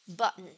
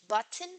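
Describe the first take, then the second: First: The middle consonant is a glottal stop. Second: The middle consonant is a plain t sound. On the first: "a glottal replacement of the um, alveolar plosive t" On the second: "Instead of button"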